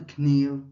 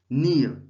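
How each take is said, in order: First: The word starts with a k sound. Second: The word starts with no k sound. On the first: The speaker calls it wrong. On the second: The speaker calls it right. "we don't pronounce the K. It's silent"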